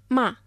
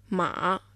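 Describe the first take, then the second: First: It is said with the fourth tone. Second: It is said with the third tone. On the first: It means to scold. "Μα με τον τέταρτο τόνο" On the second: It means horse. "Μα με τον τρίτο τόνο"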